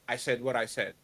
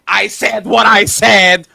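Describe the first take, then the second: First: Quiet mocking quote. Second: Slow, loud mocking quote; mocking shout. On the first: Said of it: "Does that better my argument". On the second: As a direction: throw the line back, slow and loud. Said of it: "they think that saying".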